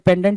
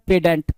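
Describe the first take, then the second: First: The n sound is pronounced in the first syllable. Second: The n sound is dropped from the first syllable. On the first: "पेंडेंट बोलते हैं भाई" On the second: "जहाँ पे एन silent होता है"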